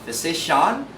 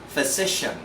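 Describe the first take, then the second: First: The ending is not a soft shen sound. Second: The ending is a soft shen sound. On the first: The speaker calls it wrong. "not physician" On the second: The speaker calls it right. "must be pronounced as soft shen"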